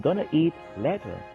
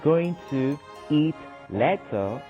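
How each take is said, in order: First: Going to is reduced to one word, gonna. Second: Going to is said as two full words. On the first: "I would say" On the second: "instead of saying"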